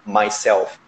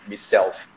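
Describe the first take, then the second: First: The word is said clearly and fully. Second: The word is said in a murmured way. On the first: "em vez de falar myself" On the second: "eles falam meio que murmurando os britânicos"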